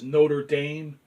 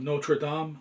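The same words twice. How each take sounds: First: The name is said with an English-style pronunciation. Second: The name is said with a French-style pronunciation. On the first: The way most people say it. "everybody pronounces it as Notre Dame" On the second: The speaker's own way, learned in Europe. "you're going to have to excuse my pronunciation of Notre Dame"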